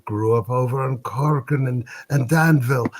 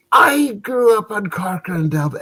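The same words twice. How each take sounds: First: Said in the usual way. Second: High-pitched, excited drinker's cry; drunken amazement. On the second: Acted. Drunk brother hears they share a street, amazed. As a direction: exclaim it high, as if astounded. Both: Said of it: "had his share of the drink".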